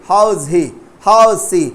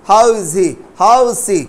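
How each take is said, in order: No difference in how they are said.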